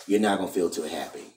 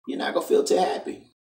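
First: Said in the usual way. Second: High, breathy whispered echo of the warning; whispered repeat. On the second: Shown as a demonstration. Vlogger warning young women, echoing himself in a whisper. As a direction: hush it like a creepy aside.

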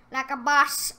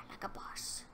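First: "Like a boss" called out loud and proud, rising at the end; a smug cheer after the whisper; loud boast. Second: Whisper. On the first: Repeats it out loud, gloating. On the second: Gloating whisper after a kill. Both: Real, not acted.

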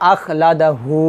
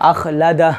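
First: আখলাদা হু with "hu" sounded and held long; stretched ending. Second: আখলাদা closed on a vowelless "h"; stopped ending. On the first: Teacher reciting the next example unstopped, lengthened hu. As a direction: draw out the final হু after আখলাদা. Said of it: "একই উচ্চারণ". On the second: Teacher showing the same example at waqf, vowelless ending. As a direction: drop the hu, end আখলাদা on bare h. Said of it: "মদের হরফটা জজমের মতো উচ্চারণ". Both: Shown as a demonstration.

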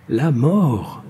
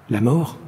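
First: "mort" drawn out and falling; insistent. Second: "mort" lifted as a question. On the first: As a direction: insist on "La mort", letting it fall. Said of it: "insista-t-il". (« mort » insistant, appuyé et descendant) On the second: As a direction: ask "La mort" with a rising end. He questions the idea of death. (« mort » interrogatif, en montant) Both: A narrator's reading.

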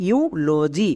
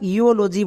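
First: ইউলজি said as iu-lo-ji, with the first vowel pronounced iu; ইউলজি with the iu sound, not io; ইউলজি blended clearly and set against the wrong form; correct pronunciation. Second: ইওলজি said with an io sound where iu belongs; ইওলজি shown as the mistake to avoid; ইওলজি mispronounced on purpose as a warning; wrong pronunciation. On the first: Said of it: "একে আমরা ইওলজি বলতে পারবো না". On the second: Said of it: "বলতে পারবো না". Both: Shown as a demonstration.

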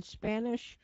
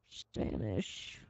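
First: Said in the usual way. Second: Breathy whisper of the word Spanish. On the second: Shown as a demonstration. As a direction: drop to a hushed whisper on Spanish. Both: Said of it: "Spanish, (said again)".

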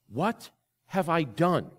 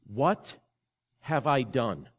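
First: Slow, drawn-out, hollow lament; anguished repeat. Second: Broken up by long pauses, a touch of grief; grieving quote. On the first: Echoing the friend's question to the congregation, slow and anguished. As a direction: stretch it out as if reliving the pain. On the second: Retelling a friend's call after his affair, mildly grieving. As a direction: let each word hang, stunned with regret. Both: Retold or imitated. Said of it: "he said these words with such grief and such pain".

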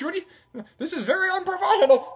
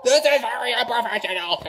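First: High, fast huffy complaint; mock indignation. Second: Giggling through the complaint; losing it while scolding; laughing. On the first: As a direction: fake outrage at the camera, pitched high. Scolding after camera mishap. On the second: Real, not acted. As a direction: repeat it breaking into real laughter.

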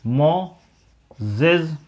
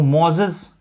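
First: "Moses" very slowly, in two separate syllables; split into syllables. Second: Said in the usual way. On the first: Shown as a demonstration. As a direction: break "Moses" after मो with a clear pause. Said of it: "मो ये एक syllable हो गया". ("Moses" को दो हिस्सों में, रुककर बोलें)

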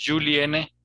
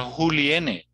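First: "Juliene" with a voiced J; Portuguese J. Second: "Juliene" starting with a throaty H sound; J of "Juliene" as a rough H; Spanish J. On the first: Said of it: "Lo mismo". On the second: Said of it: "no es un nombre español". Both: Shown as a demonstration.

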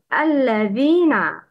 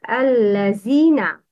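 First: "الذين" with tongue tip between the teeth; correct dhal. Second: "الذين" mispronounced with a z; dhal as z. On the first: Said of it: "Bring the tongue tip out". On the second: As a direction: say "الذين" with z in place of th. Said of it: "The wrong is". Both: Shown as a demonstration.

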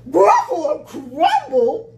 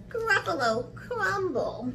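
First: Loud, slow, high-rising exclamation; alarmed Gruffalo. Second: High, teasing mouse voice; name the dish in a high, sly voice; menacing little mouse. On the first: Gruffalo hearing it may be eaten, loud alarm. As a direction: boom it back in horror. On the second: Mouse threatening to eat the Gruffalo, high and sly. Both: Acted.

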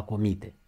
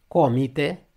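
First: Comite stressed on i; verb stress on comite. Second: Comite stressed on o, loud; noun stress on comite. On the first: Teacher contrasts the verb, comite stressed in the middle. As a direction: say 'co-MI-te' for comite. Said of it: "nu verbul a comite". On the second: Teacher shows the noun, comite stressed first. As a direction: say 'CO-mite' for comite. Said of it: "substantivul comite". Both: Shown as a demonstration.

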